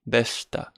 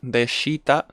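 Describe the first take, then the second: First: The vowel after sh is dropped. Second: The vowel after sh is clearly pronounced. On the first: The speaker calls it right. "we cut the e" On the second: The speaker calls it wrong. "Instead of deshita"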